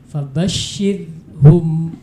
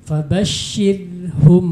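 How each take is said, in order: Both takes have the same delivery.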